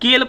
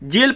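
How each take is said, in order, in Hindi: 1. शब्द k ध्वनि से शुरू होता है। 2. शब्द j ध्वनि से शुरू होता है। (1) "ये सब गलत है" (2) "ये सब गलत है"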